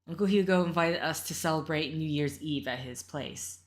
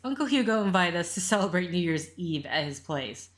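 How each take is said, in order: First: It is said in another character's voice. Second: It is said in the mother's voice.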